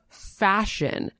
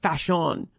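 First: The last syllable is reduced and unstressed. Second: The last syllable is a full, clear 'un'.

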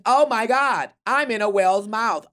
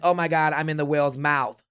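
First: It is said noticeably louder. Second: It is said at a normal, quieter volume.

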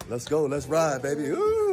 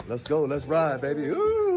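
Both takes have the same delivery.

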